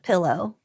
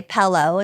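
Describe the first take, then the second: First: Said in the usual way. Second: "pello" with an E, like "fellow"; Iowa "pello". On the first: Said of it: "instead of "pillow". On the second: Shown as a demonstration. Host quoting people from Iowa, "pello" with an E. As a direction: say pillow as "pello". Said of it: "people from Iowa say "pello".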